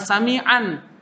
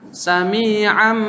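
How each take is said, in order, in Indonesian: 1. Berakhir dengan bunyi n. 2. Berakhir dengan bunyi m, bibir tertutup. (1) "Jangan sami'an" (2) "Harus dibaca mim. ... tertutup mulutnya"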